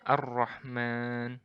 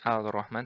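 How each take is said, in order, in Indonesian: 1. L melebur ke dalam R yang ganda. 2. Bunyi L diucapkan sebelum R. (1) "langsung melebur ke huruf ra" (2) "bukan Al-Rahman"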